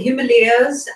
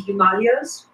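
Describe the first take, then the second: First: It is said the Western way. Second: It is said the Indian way. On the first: "as as Brad Casey pronounce it" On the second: "We pronounce it in India as the Himalayas"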